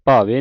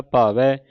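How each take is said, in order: First: ਭਾਵੇ with a closed final "ay"; wrong ending demo. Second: ਭਾਵੈ with an open final "ai"; correct open ending. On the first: Teacher showing what not to read, ਭਾਵੇ ending "ay". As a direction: say ਭਾਵੇ as "bhaa-vay". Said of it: "ਭਾਵੇ ਨਹੀਂ ਪੜ੍ਹਨਾ". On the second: Teacher showing the right reading, ਭਾਵੈ ending in open "ai". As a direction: say ਭਾਵੈ as "bhaa-veh". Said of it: "ਦਲਾਵਾਂ ਲੱਗੀਆਂ". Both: Shown as a demonstration.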